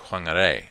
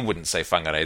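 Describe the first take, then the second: First: It begins with a breathy W-H sound. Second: It begins with an F sound. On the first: "they'd say Whangarei, or something like that" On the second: "normally that's pronounced F"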